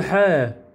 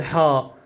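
First: حاء said as a short ħe sound, not the letter name; right letter sound. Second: حاء said as the full letter name ħaa, with a long open vowel; name the letter حاء as in the alphabet; wrong letter name. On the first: Teacher showing pupils the right sound of the letter. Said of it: "الحاء نقول حاء". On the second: Teacher showing the wrong way, saying the letter name. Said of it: "ما نقول حاء". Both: Shown as a demonstration.

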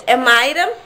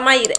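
First: Mayra said MAY-ra, two syllables; correct pronunciation. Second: Maíra with stressed í, three syllables; wrong pronunciation. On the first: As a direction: say Mayra with the diphthong ay. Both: Shown as a demonstration. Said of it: "eu sempre falo Maíra".

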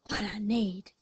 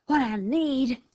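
First: Understated panting coyote; panted. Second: Higher-pitched, irritated coyote snap; snapped. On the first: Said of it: "panted the coyote". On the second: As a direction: snap back at the insult. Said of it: "snapped the coyote". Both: A narrator's reading.

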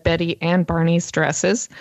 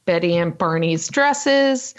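First: "and" picked out as the slip; stress on AND. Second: Said in the usual way. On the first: Real, not acted. Host catches own slip about the dresses, stress on "and". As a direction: lean on "and" in "Betty and Barney's". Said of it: "okay, I just noticed". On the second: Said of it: "that I said Betty and Barney's dresses".

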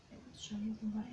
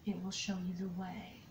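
First: Fast hushed whisper of a relayed message; quick whisper. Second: Said in the usual way. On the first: Shown as a demonstration. Reader relaying the message she hears, whispered fast. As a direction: whisper it quickly as if repeating what you heard. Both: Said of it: "is what I'm being told".

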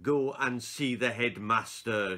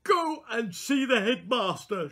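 First: Said slowly. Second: High, loud and slow through fury; furious teacher speaking slowly; slow, barely controlled. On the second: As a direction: hold back rage and say it slowly. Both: Acted. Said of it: "she said slowly".

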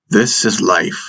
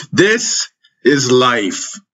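First: Matter-of-fact declaration, mildly firm; declaring. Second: High, very drawn-out forceful cry; yelling. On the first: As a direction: state it as a plain fact. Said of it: "Minot declared". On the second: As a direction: yell it slowly, hammering each word. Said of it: "he yelled at me". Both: A narrator's reading.

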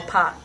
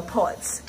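First: "pot" with an open ah vowel; alternative "pot". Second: "pot" with a rounded aw vowel; Ghanaian "pot". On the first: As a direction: open "pot" towards "paht". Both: Shown as a demonstration. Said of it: "and the pot or pot".

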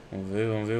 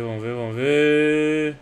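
First: Said in the usual way. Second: Slow, louder, drawn-out chant; drawn-out suspense. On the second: Real, not acted. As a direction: stretch it out as the case spins. Opening a case, building suspense.

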